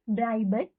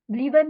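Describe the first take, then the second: First: Bleiben with a clear ai, blai-ben; correct pronunciation. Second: Bleiben said as blee-ben, not blai-ben; wrong pronunciation. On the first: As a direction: fix it: bleiben, ai as in eye. (bleiben को सही, आइ की आवाज़ से) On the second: (Bleiben को गलत, ई की आवाज़ से) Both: Shown as a demonstration. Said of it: "Bleiben नहीं, bleiben".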